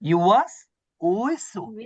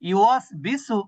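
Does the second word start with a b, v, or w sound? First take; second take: w; b. First: The second word starts with a w sound. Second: The second word starts with a b sound. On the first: The speaker calls it right. "আপনার কি বলতে হবে? উইসু উইসু" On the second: The speaker calls it wrong. "কিন্তু আপনি যদি বলেন বিসু"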